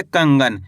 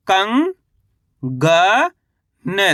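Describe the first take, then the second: First: कंगन as one whole word, falling in pitch; कंगन read in one piece, settling downward; joined-up word. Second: कंग, ग, न as separate syllables with pauses; कंग stretched and rising, then ग, then न. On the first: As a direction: blend कंगन together without breaks. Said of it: "कैसे पढ़ेंगे". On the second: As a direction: sound out कंग, ग, न for a learner. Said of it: "चलिए एक बार फिर से देखिए". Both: Shown as a demonstration.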